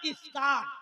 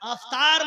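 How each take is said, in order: First: The word begins with an 'i' vowel. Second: The word begins with an 'a' vowel. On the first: The speaker calls it right. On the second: The speaker calls it wrong. "अफ्तार मत बोलिएगा"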